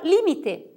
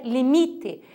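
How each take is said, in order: First: Limite said LÍ-mi-te; Spanish stress. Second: Limite said li-MI-te; Portuguese stress. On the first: Teacher giving the Spanish word, limite stressed on LI. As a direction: lift the first syllable of limite. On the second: Teacher giving the Portuguese form, limite stressed on MI. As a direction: lean on MI in limite. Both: Shown as a demonstration. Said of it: "em português é limite".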